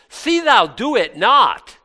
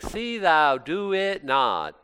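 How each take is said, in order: First: The words are short, clipped and sharply separated. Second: The words flow smoothly and calmly together. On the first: The speaker calls it right. "And I say it like that. It's very staccato" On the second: The speaker calls it wrong. "He's not saying"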